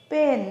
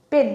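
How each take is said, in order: First: পেন with a lengthened vowel; drawn out. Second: Said in the usual way. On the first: Shown as a demonstration. Teacher testing if the word splits, পেন drawn out. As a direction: stretch পেন out in one piece. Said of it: "এটাকে ভাঙতে পারছি না". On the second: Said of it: "একবারে বলতে হচ্ছে".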